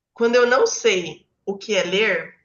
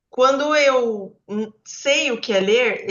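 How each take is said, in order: First: "não" stressed, falling at the end. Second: "eu" and "sei" drawn out slowly and louder; slow down and land on "sei"; slow emphatic sei. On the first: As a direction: lean on "não" to set up the contrast. (ênfase em "não", caindo no fim) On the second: ("eu sei" devagar e mais forte) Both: Shown as a demonstration.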